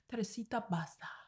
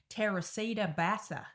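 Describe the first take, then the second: First: The name is said rolled, in native style. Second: The name is said in an Australian accent. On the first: The speaker calls it right. "You got to pronounce it right, like let it roll off your tongue" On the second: The speaker calls it wrong. "in like an Aussie accent"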